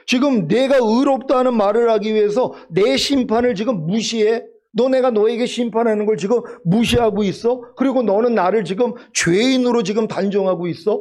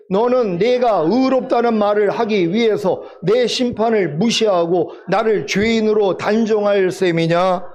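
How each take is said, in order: First: Mildly acted divine challenge, in colloquial questions; indignant rebuke. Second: Slow, measured recitation for unison reading; scripture reading. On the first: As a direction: confront them as God confronting Job. Acts out God rebuking Job. (하나님이 욥을 꾸짖듯 따져 묻는 말투) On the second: Acted. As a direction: lead the congregation word by word, unhurried. (천천히 또박또박 함께 읽는 성경 봉독)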